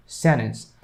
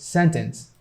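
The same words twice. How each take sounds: First: "Sentence" shortened to "sennence"; silent T. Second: Said in the usual way. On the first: Shown as a demonstration. Teacher shows the shorter American word, silent T. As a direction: drop the middle t in "Sentence". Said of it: "by keeping this T silent". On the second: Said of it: "even make this word shorter".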